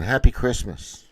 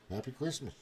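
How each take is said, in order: First: Imitating the kid. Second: His own voice, softly; repeating the kid's line under his breath; muttered, own version. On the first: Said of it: "This kid's going". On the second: Retold or imitated. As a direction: say it back quietly. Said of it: "That's what I'm gonna say".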